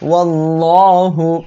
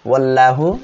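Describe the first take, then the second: First: The l sound is full and heavy. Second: The l sound is thin and light. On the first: The speaker calls it right. "এটা হবে ওয়াল্লাহু; লাম মোটা করিয়া পড়তে হবে" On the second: The speaker calls it wrong. "কেউ যেন বলবেন না"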